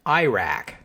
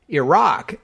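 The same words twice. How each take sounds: First: It is pronounced the common American way. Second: It is pronounced close to the Arabic. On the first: The speaker calls it wrong. "In the United States, you often hear it pronounced Iraq" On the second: The speaker calls it right. "Iraq is the pronunciation closest to the Arabic"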